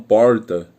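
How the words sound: It is said in a São Paulo accent. This is how people from São Paulo say it. "Os paulistas falam"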